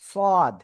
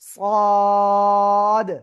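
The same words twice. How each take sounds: First: The vowel is short and clipped. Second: The vowel is held long, about four beats. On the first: The speaker calls it wrong. "অনেকে বলে এরকম" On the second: The speaker calls it right. "চার আলিফটা আনতে হবে কিন্তু"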